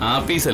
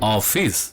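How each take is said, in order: First: The word begins with an open 'ah' vowel. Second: The word begins with a rounded 'oh' vowel. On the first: The speaker calls it wrong. "ആഫീസ് അല്ലടി ബുദ്ധൂസേ" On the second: The speaker calls it right. "ഓഫീസ് പറഞ്ഞേ"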